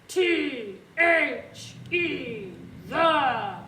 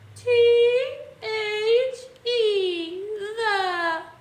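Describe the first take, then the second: First: It is growled like a scary monster. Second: It is whimpered like a sad baby.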